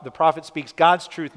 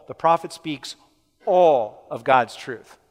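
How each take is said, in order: First: "God's" hit harder and louder; stress on God's. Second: "all" drawn out slow and loud; pause, then punch a long "all"; stress on all. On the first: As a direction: punch the word "God's". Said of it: "Emphasis on God's". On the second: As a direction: land hard and slow on "all". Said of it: "Here, emphasis on all". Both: Shown as a demonstration.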